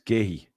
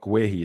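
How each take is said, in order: First: The name sounds like the single word gay. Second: The name is read out as it is spelled. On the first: The speaker calls it right. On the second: The speaker calls it wrong. "so not Guehi"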